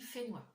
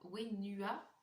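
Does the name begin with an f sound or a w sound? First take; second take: f sound; w sound. First: The name begins with an f sound. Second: The name begins with a w sound. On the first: "mais ça se dit Fenua" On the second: "alors ça s'écrit Wenua"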